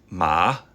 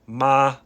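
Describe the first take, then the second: First: It is said with the second tone. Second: It is said with the first tone.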